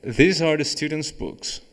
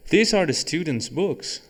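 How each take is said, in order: First: "books" read with a falling statement tune; corrected read, "books" dropping down to a statement. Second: "books" read with a rising question tune; teacher misreads it as a question, "books" lifting up; mistaken question tune. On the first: Teacher rereading the example sentence as a statement. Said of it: "não tem uma interrogação ali". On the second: Teacher reading an example sentence, mistakenly as a question. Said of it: "Não, não, desculpa, não tem uma interrogação ali". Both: Shown as a demonstration.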